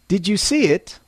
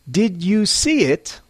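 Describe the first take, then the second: First: Normal pace, with the small words reduced. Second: Slow, with every small word said in full. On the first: The speaker calls it right. "at a normal pace" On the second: The speaker calls it wrong. "slowly, clearly, and less naturally"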